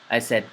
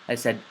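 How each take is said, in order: The two takes are said the same way.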